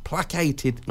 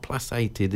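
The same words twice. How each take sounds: First: "Placated" with a k sound in the middle; hard-c pronunciation. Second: "placated" with an s sound in the middle; soft-c pronunciation. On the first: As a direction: say "Placated" as plak-ay-ted. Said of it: "not placated, isn't it?". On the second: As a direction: say "placated" as plass-ay-ted. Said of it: "s rather than a k". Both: Shown as a demonstration.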